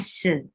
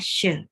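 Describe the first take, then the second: First: It begins with a plain 's' sound. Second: It begins with an 'sh' sound. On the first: The speaker calls it wrong. "Kita bacanya se" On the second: The speaker calls it right. "kalau titiknya ada di kanan bacanya syeh seperti shalom"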